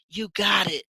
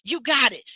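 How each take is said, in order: First: It is said in a quieter, subdued way. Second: It is said with livelier, stronger energy. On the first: The speaker calls it right. "It was a little s- more subdued" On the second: The speaker calls it wrong. "My my my tone is a little different"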